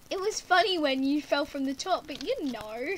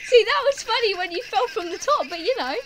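First: Said in the usual way. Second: High and loud, just out of a laughing fit; high, amused outburst. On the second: Real, not acted. Teasing a friend about a fall, giddy and loud. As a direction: blurt it out, still giddy from laughing.

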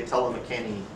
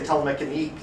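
First: "Telemecani-" ending in an open "nee"; pronunciation variant. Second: "Telemecanique" ending in a hard "neek"; pronunciation variant. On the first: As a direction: say "Telemecani-" with no final k. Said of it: "and some people say". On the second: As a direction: say "Telemecanique" with a final k sound. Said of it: "some people say". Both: Shown as a demonstration.

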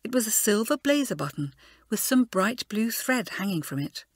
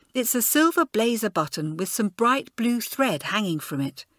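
First: Said in the usual way. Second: A touch of irritated schoolgirl; fretting over a lost button, lightly voiced; Elizabeth, mildly cross. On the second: A narrator's reading. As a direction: Elizabeth fussing at her friend, a hint of crossness. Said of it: "speaking crossly to Kathleen".

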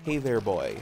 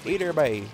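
First: Put-on "Hey there, boy" with a clear oy; standard pronunciation. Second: Put-on louder "Hey there, bye", boy turned to "bye"; Newfoundlanderese. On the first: Explaining the real word, "Hey there, boy" with standard oy. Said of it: "It's me going". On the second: Showing what it becomes, "Hey there, bye" in Newfoundlanderese. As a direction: run "Hey there, bye" together in dialect. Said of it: "Newfoundlanderese, it becomes". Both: Shown as a demonstration.

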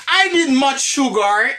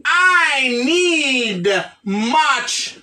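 First: Said in the usual way. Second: Very slow, drawn-out "I need much"; slow modelling. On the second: Shown as a demonstration. Teacher giving the class the correct English phrase, slowly modelled. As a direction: stretch "I", "need" and "much" for learners.

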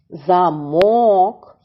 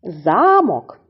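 First: Замок with a long stressed МОК; za-MOOK; stress on second syllable. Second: Замок with ЗА strong and raised; ZA-mok, falling; stress on first syllable. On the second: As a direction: hit За, let мок fall in Замок. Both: Shown as a demonstration. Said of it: "Тож іще раз повторюємо".

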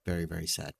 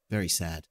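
First: Hushed, drooping pretend sadness; mock sad. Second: Lower, quieter mock sadness; understated fake sorrow; mock sad. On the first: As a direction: lower and much softer, fading mock grief. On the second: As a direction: say it like a sulky pout.

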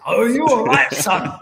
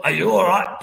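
First: A hint of a Scottish accent, higher and louder; attempted Scottish accent. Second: Said in the usual way. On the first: Footballer checking on the boy he hit, attempted Scottish accent. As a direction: have a go at a Scottish accent, knowing you can't. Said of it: "I can't do the accent". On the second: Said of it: "Big Scottish lad".

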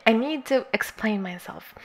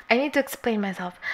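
First: Whispered. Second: Said in the usual way. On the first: Real, not acted. Repeats the line in a whisper.

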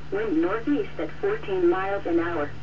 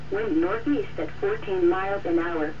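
Both takes have the same delivery.

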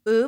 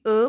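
First: او as French eu, rounded eh; pronunciation of او as "eu". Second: او as a rounded French ou; pronunciation of او as "oo". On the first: Teacher showing learners an ending, او said as French eu. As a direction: say او with rounded lips, tongue forward. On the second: Teacher showing learners an ending, او said "oo". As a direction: say او as a pure oo sound. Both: Shown as a demonstration. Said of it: "با تلفظ او".

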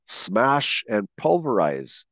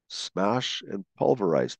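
First: Slow emphasis. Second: Said in the usual way. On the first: Shown as a demonstration. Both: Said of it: "How about these descriptive words?".

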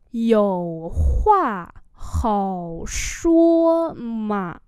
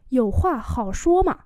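First: Very slow, drawn-out syllables; slow model reading. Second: Said in the usual way. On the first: Shown as a demonstration. Teacher repeating a phrase for learners, very slowly. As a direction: stretch each word right out.

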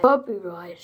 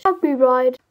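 First: Copyright said low and mocking; sneering repeat of copyright. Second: Copyright repeated louder in disbelief. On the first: Mocking the commenter's Copyright. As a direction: echo Copyright with scorn. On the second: Scoffing at a commenter: Copyright, louder. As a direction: punch out Copyright in outrage. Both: Shown as a demonstration. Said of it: "Det er altså ikke copyright".

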